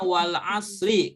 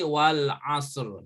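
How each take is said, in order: First: The word ends with a short i vowel. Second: The word ends on the consonant r. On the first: The reading continues into the next words. "kalau disambung" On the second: The reader stops at this word. "kalau diberhenti"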